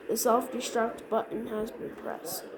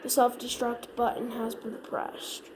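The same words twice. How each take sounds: The two takes are said the same way.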